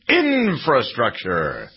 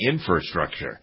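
First: The r after the f is clearly pronounced. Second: The r after the f is dropped. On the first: The speaker calls it right. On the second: The speaker calls it wrong.

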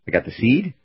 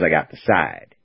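First: The acronym is said with an 'ee' vowel. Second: The acronym is said with an 'eye' vowel. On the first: "No, that doesn't sound good either" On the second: "Side or seed? Side. Side"

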